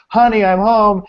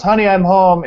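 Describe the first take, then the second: First: High, loud announced arrival; homecoming call. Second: Higher, louder sing-out hello; homecoming call. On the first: Husband re-entering to greet his wife, calling out bigger. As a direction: sing it out through the house, higher and louder. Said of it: "comes back in and goes". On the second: Husband to wife as he walks in, calling out. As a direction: call out a cheery greeting on arriving. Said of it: "walked in the door and goes". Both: Retold or imitated.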